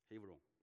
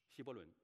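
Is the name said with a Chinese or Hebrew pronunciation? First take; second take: Hebrew; Chinese. First: The name is said with Hebrew sounds. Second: The name is said with Chinese syllables. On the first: The speaker calls it right. "希伯来文是Hebron" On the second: The speaker calls it wrong. "不是这么发音的"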